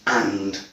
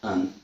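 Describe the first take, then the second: First: It has a full vowel and a final d. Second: It has a schwa vowel and no final d. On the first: "the strong form is and" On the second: "with a elision as well"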